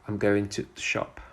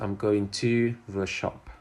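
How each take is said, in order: First: The word 'to' is reduced to a short t. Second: The word 'to' is said fully and clearly. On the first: The speaker calls it right. "To is often pronounced as t in connected speech" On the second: The speaker calls it wrong. "And not"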